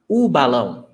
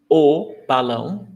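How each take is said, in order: First: The article is said with an 'oo' vowel. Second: The article is said with an 'oh' vowel. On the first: "most of the times you will hear u" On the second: "It can be pronounced o"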